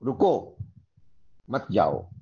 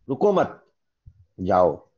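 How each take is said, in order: First: 'रुको', a clear pause, then 'मत जाओ' together; pause after रुको. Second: 'रुको मत' together, a pause, then a low 'जाओ'; pause after मत. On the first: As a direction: break the phrase after 'रुको', telling them to stay. ('रुको' के बाद ठहराव, फिर 'मत जाओ') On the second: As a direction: break the phrase after 'मत', telling them to go. ('रुको मत' के बाद ठहराव, फिर 'जाओ') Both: Shown as a demonstration. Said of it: "आपको मैंने रुकने के लिए कहा या जाने के लिए कहा".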